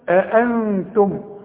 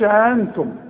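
First: Two glottal stops are clearly heard at the start. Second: Only one glottal stop is heard at the start. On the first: The speaker calls it right. "عندك همزتين اظهرهم" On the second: The speaker calls it wrong. "ما تقولش انتم"

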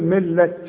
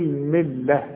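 First: The word ends with a t sound. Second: The word ends with a soft h sound. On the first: The speaker calls it wrong. "مش اقول ملة" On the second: The speaker calls it right. "التاء المربوطة بتتحول الى ه، اقول ملة"

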